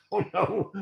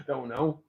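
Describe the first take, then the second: First: Laughing it out, high; laughing reply. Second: Said in the usual way. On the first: Real, not acted. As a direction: giggle through the words. Laughing while repeating a reply.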